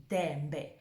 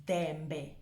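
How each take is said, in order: Both takes have the same delivery.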